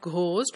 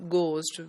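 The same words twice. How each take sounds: First: An h sound follows the g. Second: No h sound follows the g. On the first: It follows the spelling. The speaker calls it wrong. "because we have the her sound also" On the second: It follows the standard pronunciation. The speaker calls it right. "when H is not pronounced at all"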